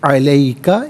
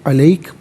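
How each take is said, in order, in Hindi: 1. शब्द एक छोटे अंतिम स्वर पर खत्म होता है। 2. शब्द एक सादे व्यंजन पर खत्म होता है। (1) "मिलाकर पढ़ेंगे अलैका" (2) "यहाँ वक्फ पढ़ेंगे तो अलैक पढ़ेंगे"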